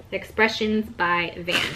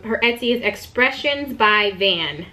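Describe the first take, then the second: First: Expressions by Van, slow and softer, each word spelled out; softly repeating the shop name for viewers; slow careful repeat. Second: Said in the usual way. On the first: Real, not acted. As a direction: repeat the name slowly and softly so they catch it. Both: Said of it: "So if you wanna check her out".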